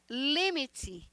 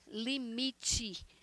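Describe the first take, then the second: First: The word carries Spanish stress placement. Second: The word carries Portuguese stress placement.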